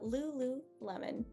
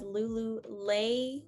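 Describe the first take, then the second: First: Soft vowels with no 'y' glide sound. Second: A strong E with a 'y' glide sound. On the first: The speaker calls it right. "a very soft E and also a very soft O" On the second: The speaker calls it wrong. "I hear a lot of people pronouncing this as Lululemon"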